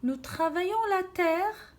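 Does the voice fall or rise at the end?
rise. It is read as a question, rising at the end.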